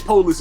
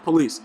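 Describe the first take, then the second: First: The first syllable 'po' is heavy and stressed. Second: The first syllable 'po' is light and unstressed. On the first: The speaker sounds ignorant or street. The speaker calls it wrong. "When you say police, it sounds too ignorant" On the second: The speaker sounds respectful and proper. The speaker calls it right. "very, very lightly"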